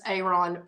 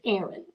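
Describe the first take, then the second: First: The name is said in an unfamiliar way. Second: The name is said the familiar, usual way. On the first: This is how another reader says the name. "he'll go [name]" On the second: This is how the name is usually said. "I have always pronounced it Aaron"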